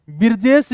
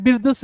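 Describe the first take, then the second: First: बिरजेश said with a long e and a final sh; बिरजेश with the e vowel and sh ending; Birjesh variant. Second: बिरजस said with a short a and a final s; बिरजस with the short a and s ending; Birjas variant. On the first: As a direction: say बिरजेश as bir-jesh, ending in sh. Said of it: "बिरजेश भी बोलते हैं". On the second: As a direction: say बिरजस as bir-jas, ending in s. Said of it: "बिरजस भी बोलते हैं". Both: Shown as a demonstration.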